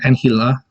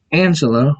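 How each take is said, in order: First: Angela with an h sound for the g; Spanish-style pronunciation. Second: Said in the usual way. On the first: Shown as a demonstration. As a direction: say Angela as "an-HEE-la". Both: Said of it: "pronounce it".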